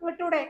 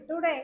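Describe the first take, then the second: First: It is said in a sharp, irritated tone. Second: It is said in a gentle, affectionate tone. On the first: It is an angry demand. The speaker calls it wrong. "അല്ലാതെ" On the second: It is a kind request. The speaker calls it right. "സ്നേഹത്തോടെ പറയാം"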